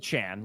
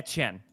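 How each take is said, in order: First: The name is pronounced like 'Achane'. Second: The name is pronounced the French way, 'Etienne'. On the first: The speaker calls it wrong. "not Achan, like Devon" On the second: The speaker calls it right. "if you look up how it's pronounced in French"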